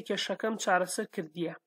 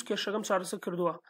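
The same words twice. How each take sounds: First: "kırdiya" closing on ee-ya; Hawleri form. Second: "kırdua" closing on oo-a; Slemani form. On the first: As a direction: end "kırdiya" in "-iya", as in Hawleri. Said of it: "But in Hawleri". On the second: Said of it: "This is Slemani accent". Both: Shown as a demonstration.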